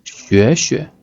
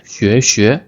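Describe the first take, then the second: First: 学学 rising first, light second; gentle second syllable. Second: 学学 with two full rising tones; both syllables stressed. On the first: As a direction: lift the first 学, let the second 学 fall lightly. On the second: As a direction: lift both syllables of 学学, as a wrong example. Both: Shown as a demonstration. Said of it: "That is not correct".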